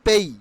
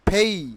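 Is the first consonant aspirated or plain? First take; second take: plain; aspirated. First: The first p is plain, without a puff. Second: The first p has a strong puff of air. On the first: The speaker calls it wrong. "তাহলে কিভাবে আমরা উচ্চারণ করতাম? পেই" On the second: The speaker calls it right. "এখন থেকে উচ্চারণ হবে ফেই"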